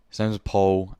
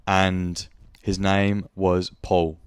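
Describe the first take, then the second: First: Said in the usual way. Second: "And his name was Paul" drawn out very slowly; stress on Paul. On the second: Shown as a demonstration.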